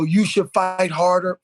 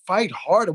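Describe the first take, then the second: First: Said in the usual way. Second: Disbelieving repeat with a questioning rise; incredulous echo. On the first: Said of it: "replying at the bottom... you know". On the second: Real, not acted. Host scoffing at the comment telling fathers to fight harder, incredulous. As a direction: throw the phrase back in disbelief. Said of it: "Why you gotta fight at all?".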